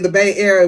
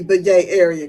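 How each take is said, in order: First: Said in the usual way. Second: "Yay" said with a Y where Bay has a B; "Yay" rhymes with Bay, hit the Y; Yay area slang. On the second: Shown as a demonstration. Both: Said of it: "instead of saying the Bay Area".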